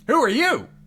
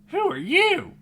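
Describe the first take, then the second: First: It is said in his natural voice. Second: It is said in a high, nasal voice.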